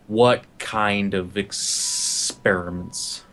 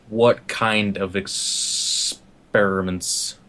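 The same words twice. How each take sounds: First: Very slow, low, creepy; creepy murderer in his face, very slow. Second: Very slow, low, menacing; creepy menacing repeat, very slow; creepy again. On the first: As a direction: draw it out inches from his face. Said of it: "almost a creepy movement". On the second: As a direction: creep it out word by word. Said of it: "hands on his shoulders". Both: Acted.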